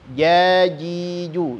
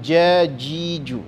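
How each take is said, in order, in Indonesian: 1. Huruf j dibuat dengan bagian tengah lidah. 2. Huruf j dibuat dengan ujung lidah. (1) "Tengah lidah saja"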